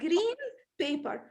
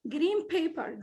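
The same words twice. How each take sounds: First: The n in green is a clear n. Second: The n in green sounds like m. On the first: The speaker calls it wrong. "not green paper" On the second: The speaker calls it right. "Look at my lips, they get together"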